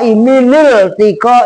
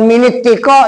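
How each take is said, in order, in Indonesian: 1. Bunyi L mengikuti vokal pertama. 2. Bunyi T mengikuti vokal pertama. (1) "minil tiko isakinen" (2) "bukan minit tiko"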